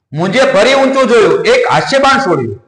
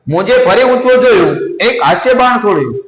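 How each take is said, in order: No difference in how they are said.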